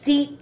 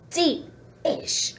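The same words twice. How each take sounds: First: Said in the usual way. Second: Deep-ish whispered as a soft, much quieter hedge; playful whispered correction; whispered aside. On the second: Shown as a demonstration. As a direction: breathe deep-ish as a teasing afterthought.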